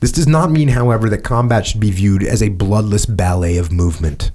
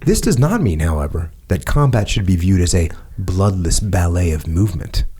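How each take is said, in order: First: It is read in his normal voice. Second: It is read in a different, put-on voice.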